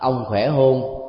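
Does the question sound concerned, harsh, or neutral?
neutral. It is asked in a plain, ordinary tone. It shows ordinary concern. "nếu mình nói bằng cái ngữ điệu đó, chúng ta thấy là đây là một sự quan tâm bình thường"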